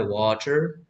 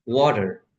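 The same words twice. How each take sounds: First: British water. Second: American water. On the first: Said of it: "British pronunciation होता है वाटर". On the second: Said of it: "American English में बोलते हैं वाटर". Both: Shown as a demonstration.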